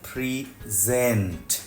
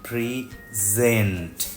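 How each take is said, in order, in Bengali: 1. জোর দ্বিতীয় সিলেবলে। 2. জোর দ্বিতীয় সিলেবলে।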